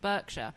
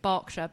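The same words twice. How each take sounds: First: It is said with an American accent. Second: It is said with an English accent.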